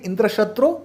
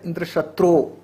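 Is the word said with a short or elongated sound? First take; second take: short; elongated. First: The word is said with a short sound. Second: The word is said with an elongated sound. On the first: Someone who will kill Indra is asked for. The speaker calls it right. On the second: Someone who will be killed by Indra is asked for. The speaker calls it wrong.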